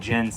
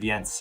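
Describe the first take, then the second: First: The name is said in an anglicized way. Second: The name is said in a Scandinavian way. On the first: This is how the family says it. "my family's always said Jens" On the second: This is how others expect it to be said. "instead of Jens"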